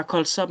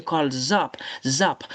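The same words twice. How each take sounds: First: "call up" with a voiceless s joined on, call-sop; wrong s linking. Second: "call zop" with a buzzed z starting the second word; correct z linking. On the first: Teacher rejecting the wrong sound, hissed s linking. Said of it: "Non, c'est pas call up". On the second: Teacher correcting the liaison, voiced z linking. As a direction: link it as "call zop", then isolate "Zop". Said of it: "mais c'est call zop". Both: Shown as a demonstration.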